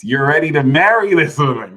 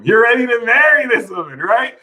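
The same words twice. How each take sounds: First: Said in the usual way. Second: Much higher and louder; excited emphasis. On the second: Shown as a demonstration. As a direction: push it up with excitement.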